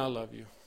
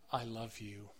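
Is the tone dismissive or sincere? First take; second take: dismissive; sincere. First: It is said in a dismissive tone. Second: It is said in a sincere tone. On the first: The words are not really meant. The speaker calls it wrong. "The tone makes a difference" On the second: The words are really meant. The speaker calls it right. "The tone makes a difference"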